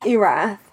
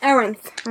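First: Erath said with no n sound; mispronounced name. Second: Erinth said with an n before th; corrected pronunciation. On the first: Podcast host misreading a listener's name, mispronounced as Erath. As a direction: say Erath, ending in an open a and th. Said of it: "why do I always say his name wrong?". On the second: Host repeating co-host's version of the name, corrected to Erinth. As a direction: say Erinth, ending in -inth. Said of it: "I pronounce it Erinth". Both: Real, not acted.

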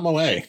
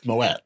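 First: Moët as mo-AY, silent T; wrong pronunciation. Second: Moet with the final T sounded; correct pronunciation. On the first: Host mocks how people say the champagne, T dropped in Moët. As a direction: say Moët ending in AY, without a T. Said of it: "It's not Moët". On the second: Host corrects people on the champagne, T sounded in Moet. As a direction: say Moet as mo-ETT. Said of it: "It's Moet". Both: Shown as a demonstration.

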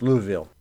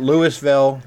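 First: Louisville said as "LOO-vil"; local pronunciation of Louisville. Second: Louisville said as "LOO-is-vil"; spelling pronunciation of Louisville. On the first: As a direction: squeeze Louisville into two syllables, no s. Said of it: "It's Louisville". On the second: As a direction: sound the s in Louisville. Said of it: "It's not Louisville". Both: Shown as a demonstration.

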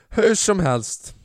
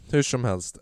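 First: Drawn-out moving on. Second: Said in the usual way. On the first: Real, not acted. Pushes past awkward moment.

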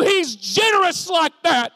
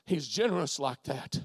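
First: High, loud proclamation; preacher's shout. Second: Low, soft refrain; hushed assurance. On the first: Preacher declaring God's generosity to Russ, shouted. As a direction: proclaim it at full force. Climax of sermon refrain. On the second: Preacher assuring Lindsay of God's generosity, hushed and low. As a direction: let it sink in, low and soft. Refrain repeated softly to listener. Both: Real, not acted.

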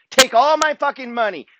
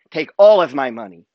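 First: Pitched high and defiant; fired up. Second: Said in the usual way. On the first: Real, not acted. Speaker defying anyone who'd take his money, raised pitch. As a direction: dare them to take it all, a touch raised. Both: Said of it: "Let me say it again".

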